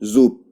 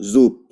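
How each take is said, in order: No difference in how they are said.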